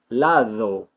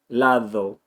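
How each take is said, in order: First: The d is a th sound with tongue contact. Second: The same.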